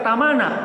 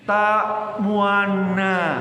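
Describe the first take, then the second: First: The middle is said plain without lip rounding. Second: The middle is said with rounded, pushed-out lips. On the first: The speaker calls it wrong. "Bacanya orang yang nggak ngaji bacanya tamana" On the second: The speaker calls it right. "Monyong bibirnya nih"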